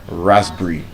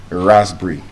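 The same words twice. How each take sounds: No difference in how they are said.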